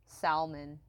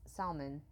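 First: The L sound is pronounced strongly. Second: The L sound is left out. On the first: This is how it used to be said. "I used to pronounce the L super hard" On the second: This is how it is said now. "So now it's salmon"

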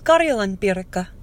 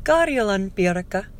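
The two takes are said the same way.

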